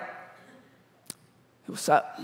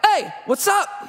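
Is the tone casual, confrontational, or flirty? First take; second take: flirty; confrontational. First: It sounds creepy and flirty. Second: It sounds confrontational and aggressive.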